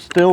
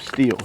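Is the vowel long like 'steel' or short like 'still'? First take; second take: short; long. First: The vowel is short, as in 'still'. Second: The vowel is long, as in 'steel'. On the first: This is how the speaker always said it. "I always did pronounce it still" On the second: This is how someone who works at the dealership says it. "but he says steel"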